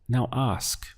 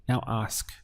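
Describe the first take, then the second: Both takes have the same delivery.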